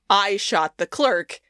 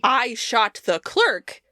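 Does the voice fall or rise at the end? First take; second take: fall; rise. First: The voice falls at the end like a statement. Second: The voice rises at the end like a question. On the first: It is a confession. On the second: It is an incredulous question. "with a question mark at the end"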